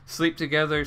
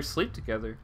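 First: Said in the usual way. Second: Lower, softer echo; quiet repeat. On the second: Shown as a demonstration. Player softly echoes Yuri's creepy line, quieter. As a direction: mutter it back under your breath.

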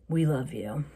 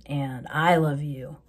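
First: Said in the usual way. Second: "I" drawn out and stressed. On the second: Real, not acted. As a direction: lean slowly on the word "I". Contrasts "we" with "I.

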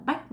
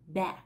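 First: "back" clipped Vietnamese style, k swallowed; fast imitation of the common slip on "back"; "back" said like Vietnamese bác, no final k; wrong back. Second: "back" with a tense a and a crisp final k; "back" as /bæk/, unvoiced k; correct back. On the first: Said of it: "Không phải là back". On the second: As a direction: say "back" right, k released. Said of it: "mình đọc là back". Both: Shown as a demonstration.

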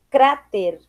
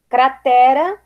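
First: "cráter" stressed on CRÁ, falling; Spanish stress. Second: Said in the usual way. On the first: Shown as a demonstration. Teacher reading the list, "cráter" with Spanish stress on CRÁ. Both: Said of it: "diferença entre as palavras heterotônicas".

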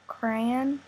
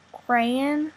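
First: "crayon" squeezed to one syllable, like kran. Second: "crayon" said as KRAY-un, two full syllables. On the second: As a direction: say "crayon" like cray plus un. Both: Shown as a demonstration. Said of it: "doing the accent tag".

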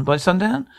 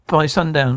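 First: "By sundown?" lifted into a rising question; incredulous echo. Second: Said in the usual way. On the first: Acted. Echoing the call-me ultimatum back, incredulous. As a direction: throw "By sundown?" back with the pitch climbing at the end.

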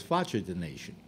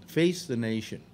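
First: "Faccia" said the Italian way, FAH-cha, in place of "Face"; mock Italian pronunciation. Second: Said in the usual way. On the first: Shown as a demonstration. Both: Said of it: "which is known in Italy as".

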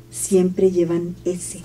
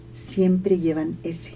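Both takes have the same delivery.

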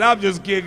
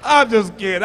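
First: Said in the usual way. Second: Laughing. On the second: Real, not acted.

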